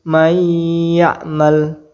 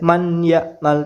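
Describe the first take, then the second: First: The n merges into the y with nasalization. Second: The n is sounded separately, without nasal merging. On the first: The speaker calls it right. "harus dibaca dengung, uh, memasukkan dan berdengung" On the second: The speaker calls it wrong. "tidak boleh man ya'mal, tidak boleh"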